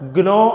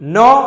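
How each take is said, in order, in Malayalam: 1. വാക്ക് തുടങ്ങുന്നത് n-ന് മുമ്പ് g ഉപയോഗിച്ചാണ്. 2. വാക്ക് നേരിട്ട് n ശബ്ദത്തോടെയാണ് തുടങ്ങുന്നത്. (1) "ഗ്നോ എന്നല്ല" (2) "നോ എന്നാണ്"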